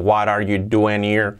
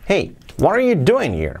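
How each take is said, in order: First: It is said flat, without intonation. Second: It is said with lively, varied intonation.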